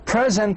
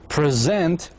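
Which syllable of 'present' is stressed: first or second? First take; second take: first; second. First: The stress is on the first syllable. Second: The stress is on the second syllable. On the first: It means a gift. "Present is a noun" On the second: It means to introduce someone. "the stress locates on the second syllable"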